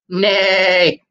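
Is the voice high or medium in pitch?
medium. It is said in a middle speaking voice.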